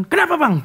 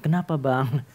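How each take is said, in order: First: Batak retort. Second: "Kenapa Bang?" low and soft, timid; meek reply. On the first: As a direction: snap back like a bold Batak. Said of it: "Kalau orang Batak kan". ("Kenapa Bang?" dengan nada tinggi dan menantang) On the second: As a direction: ask it shyly like the quiet friend. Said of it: "Kalau ini enggak". ("Kenapa Bang?" pelan dan malu-malu) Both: Retold or imitated.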